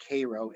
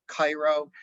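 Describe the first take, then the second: First: "Cairo" said KAY-roh, first vowel as in "day"; local Illinois pronunciation. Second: "Cairo" said KAI-roh, first vowel like "eye"; as spelled. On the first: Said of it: "Illinoisans know it's pronounced as". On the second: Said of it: "looks like it's K". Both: Shown as a demonstration.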